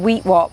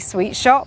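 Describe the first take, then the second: First: The S and SH sounds are left out. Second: The S and SH sounds are clearly said.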